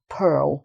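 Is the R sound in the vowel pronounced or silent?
pronounced. The vowel has a slight R sound. "there would be a slight R sound in it"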